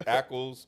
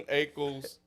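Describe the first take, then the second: First: "Ackles" with a short A, as in "back"; corrected pronunciation. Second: "Ackles" with a long A, like "aches"; mispronounced name. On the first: Host correcting an actor's name, "Ackles" said ACK-ulz. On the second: Host reading an actor's name, "Ackles" said AY-kulz. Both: Real, not acted.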